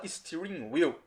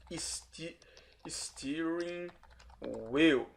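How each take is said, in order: First: Said in the usual way. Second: Soft, halting, syllable by syllable; stretched syllables with pauses between; slow sounding-out. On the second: Shown as a demonstration. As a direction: sound out "steering wheel" in pieces. Teacher sounds out new term.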